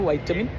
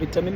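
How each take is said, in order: First: It is said the American English way. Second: It is said the British English way. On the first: "American English" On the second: "British English ആണ്"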